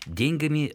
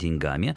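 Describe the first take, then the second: First: The stress is on the first syllable. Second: The stress is on the second syllable. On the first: This is the old-fashioned form. "устаревшая форма дает на... корень" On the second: This is the current standard form. "ударение ставится на окончание"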